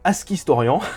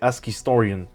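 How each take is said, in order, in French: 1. Le nom se prononce avec un accent français. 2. Le nom se prononce avec un accent anglais. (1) "on va le prononcer à la française" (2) "normalement c'est Ask Historian"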